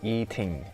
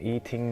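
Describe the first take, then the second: First: The pitch starts high and falls low. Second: The pitch stays level throughout the word. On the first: "you start with the high pitch and you end with the low pitch intonation" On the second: "you just need to speak a very flat pitch intonation"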